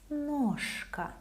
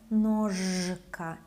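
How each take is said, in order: First: The consonant before k is voiceless, like sh. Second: The consonant before k is voiced, like zh. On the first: The speaker calls it right. "it's ножка" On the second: The speaker calls it wrong. "It's not ножка"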